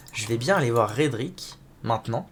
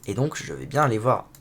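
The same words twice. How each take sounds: First: Said in the usual way. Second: Throaty, catching voice; frog in throat. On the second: Real, not acted. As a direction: talk through a frog in the throat. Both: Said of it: "j'ai un truc dans la gorge".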